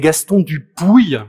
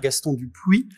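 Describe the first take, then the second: First: The surname ends with a 'pooy' sound. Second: The surname ends with a 'pwee' sound. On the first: This is how people in Toulouse say the name. The speaker calls it right. "comme on dit visiblement, dans ces contrées lointaines" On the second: This is how outsiders usually say the name. The speaker calls it wrong. "pour ne plus dire"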